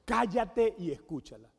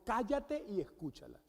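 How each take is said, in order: First: Firm, punched-out order; forceful command. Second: Quieter, firm retold order; forceful command. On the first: Retold or imitated. Holy Spirit ordering the husband mid-argument, forceful command. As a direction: quote a blunt, commanding voice. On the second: Husband recounting what God told him, understated forceful command. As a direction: repeat the command firmly but softly. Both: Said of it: "en esa contundencia".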